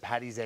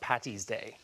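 First: The middle consonant is a soft d sound. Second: The middle consonant is a crisp t sound. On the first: The speaker calls it right. "I'm impressed she said Patty's Day" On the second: The speaker calls it wrong. "not Patty's Day. ... They see two T's"

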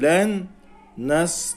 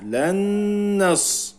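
First: The two words are read separately, without merging. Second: The n is merged into the next word, doubled. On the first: The speaker calls it wrong. "Ayrı ayrı okumuyoruz. Len nas demiyoruz" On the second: The speaker calls it right. "Burada idgamu ma'al gunne var. Şedde yapıyoruz"

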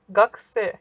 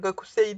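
First: The u after k is silent, and final i drops. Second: Every vowel, including the u, is fully pronounced. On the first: The speaker calls it right. "Gakse şeklinde okunuyor" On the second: The speaker calls it wrong. "Yani Gakusei değil"

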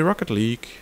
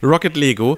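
First: The second word is said as one syllable, leeg. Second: The second word is said as two syllables, lego.

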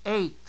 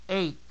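No difference in how they are said.

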